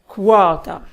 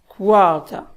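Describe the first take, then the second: No difference in how they are said.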